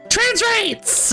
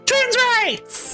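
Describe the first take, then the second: First: It is said weakly and pathetically. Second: It is said strongly and confidently.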